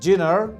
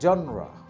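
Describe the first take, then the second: First: It is said like jee-nar, with a j sound. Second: It is said like zhon-ra, with an open first vowel. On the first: The speaker calls it wrong. "Not জিনার" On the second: The speaker calls it right. "শব্দটা হচ্ছে জনরা"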